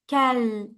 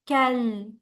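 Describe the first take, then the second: Both takes have the same delivery.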